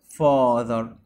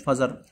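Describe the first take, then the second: First: The middle consonant is a voiced th sound. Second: The middle consonant is a z sound. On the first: The speaker calls it right. "والتي اتش بنطقها ذ" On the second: The speaker calls it wrong. "مش فازر"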